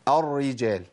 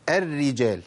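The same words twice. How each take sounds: First: الرجال with the first r thickened, like "ar-rijal"; wrong heavy r. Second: الرجال with both r's thin, front vowel before them; correct light r. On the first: Teacher showing the mistake, heavy first r in الرجال. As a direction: darken the first r of الرجال, then lighten. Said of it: "طب الخطأ فين؟". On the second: Teacher giving the correct example, thin r in الرجال. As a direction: say الرجال as "er-rijal", r kept light. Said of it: "ده الصواب". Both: Shown as a demonstration.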